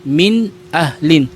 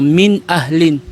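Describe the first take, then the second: First: The n sound is pronounced clearly and fully. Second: The same.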